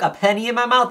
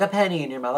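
First: Incredulous. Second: Said in the usual way. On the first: Retold or imitated. Repeating nurse's words in disbelief.

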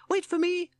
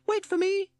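First: Very high, louder squeaky call; a tiny toad piping after the others; lost inside big shorts, calling out. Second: Very high, louder squeaky call; piping it out again, left behind; lost in the shorts, calling after friends; Toad calling. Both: Acted. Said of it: "called Toad".

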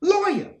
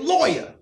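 First: "Lawyer." repeated much higher, pressing, with a fall; "Lawyer." pushed up high the second time, insisting. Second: Firm, higher call of "Lawyer."; "Lawyer." said once, clipped and falling; asking for a lawyer. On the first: Repeating his demand to police, a high insistent "Lawyer.". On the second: Retelling what he'd have told police, a firm "Lawyer.". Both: Retold or imitated. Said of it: "but I would have said".

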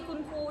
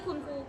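No difference in how they are said.

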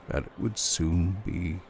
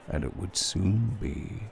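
The two takes are said the same way.

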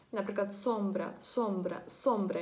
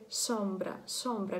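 First: Сомбра with a hard clear Ukrainian с; plain Ukrainian s. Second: Сомбра with a soft lisping с; softer lisped s. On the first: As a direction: say сомбра with a sharp с. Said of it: "як с". (сомбра з твердим українським с) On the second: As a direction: lisp the с in сомбра gently. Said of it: "м'якше так, е, шепеляві". (сомбра з м'яким шепелявим с) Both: Shown as a demonstration.

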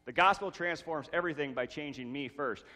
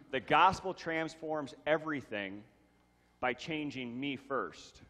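First: Said in the usual way. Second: First take slowed down and drawn out on "by changing me first"; slow emphatic statement. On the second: Shown as a demonstration. Pastor stating point one to the church, slow and deliberate. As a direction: lay out each word deliberately.

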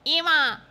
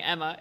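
First: Emma said EE-muh, raised and loud; long-e pronunciation. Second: Emma with a short e, EM-uh; short-e pronunciation. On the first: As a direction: stretch the first vowel of Emma into EE. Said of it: "It's so hard to say Emma". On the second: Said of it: "just gonna start saying Emma". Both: Shown as a demonstration.

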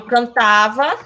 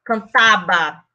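First: Cantava said with a clear Portuguese v; Portuguese pronunciation of cantava with v. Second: Cantaba said with a b instead of v, slowly; slow Spanish cantaba with b. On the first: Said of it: "Pronto, cantar". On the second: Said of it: "então eu ficava". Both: Shown as a demonstration.

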